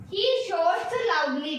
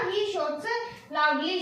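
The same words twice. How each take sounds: First: Drawn-out reading of the example, word by word; slow, deliberate example sentence; slow dictation. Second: Said in the usual way. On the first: Shown as a demonstration. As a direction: read it slowly so students can follow. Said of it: "ये देखो". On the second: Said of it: "क्या बोला".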